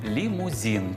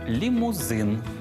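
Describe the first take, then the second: First: The last syllable has a Russian-style soft vowel. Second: The last syllable has a Ukrainian-style hard vowel. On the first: The speaker calls it wrong. "на українські слова накладають російську вимову" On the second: The speaker calls it right. "після приголосних з цієї фрази вживаємо «и»"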